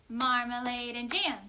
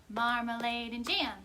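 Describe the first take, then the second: The two takes are said the same way.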